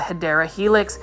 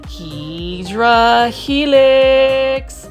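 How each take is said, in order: First: The first word is said as Hedera. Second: The first word is said as Hydra. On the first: The speaker calls it right. "what you would say correctly is a Hedera Helix" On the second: The speaker calls it wrong. "I was saying it incorrectly for the longest time"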